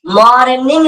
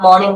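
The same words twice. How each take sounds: First: मॉर्निंग drawn out with every sound voiced, R included; exaggerated, higher मॉर्निंग with a full R; overpronounced wrong form. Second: मॉर्निंग said short, with a silent R; quick, smooth मॉर्निंग without the R; natural pronunciation. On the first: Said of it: "मॉर्निंग नहीं बोलना है". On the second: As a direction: say मॉर्निंग compactly as "maw-ning". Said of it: "मॉर्निंग बोलना है". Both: Shown as a demonstration.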